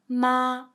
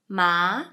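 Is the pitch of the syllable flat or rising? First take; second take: flat; rising. First: The pitch stays level and high throughout. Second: The pitch climbs upward through the syllable. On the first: "It's flat, very sounds like the normal pinyin sound" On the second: "the second tone is a going up sound"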